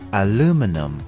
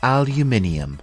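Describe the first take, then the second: First: It is said in an American English accent. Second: It is said in a British English accent. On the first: "The American English pronunciation is aluminum" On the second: "in British English, it is called aluminium"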